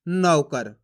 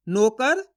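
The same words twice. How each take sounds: First: नौकर with open au in नौ, low fall; stressed au. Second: नौकर said as "no-kar", tune rising; pure o in place of au in नौकर; wrong o vowel. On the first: Teacher settling on the correct reading, au stressed. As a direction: lean on the au of नौकर, "nau-kar". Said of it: "पढ़ना आपको औ करके". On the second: Teacher testing the difference, this one with plain o. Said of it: "फर्क समझ में आ रहा है". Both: Shown as a demonstration.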